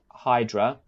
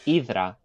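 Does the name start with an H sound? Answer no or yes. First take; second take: yes; no. First: The name starts with an H sound. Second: The name starts with a vowel, no H sound. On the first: The speaker calls it wrong. "some people might pronounce it" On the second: The speaker calls it right. "but it's Idra"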